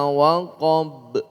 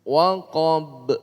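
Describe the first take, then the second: Both takes have the same delivery.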